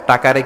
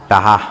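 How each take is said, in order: First: The middle consonant is a k sound. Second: The middle consonant is an h sound. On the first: This is the standard form. "টাকারে কি বলে" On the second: This is how people from Barishal say it. "ক বলতে পারে না বরিশালের ভাইয়েরা, কয়েরে বলে হ"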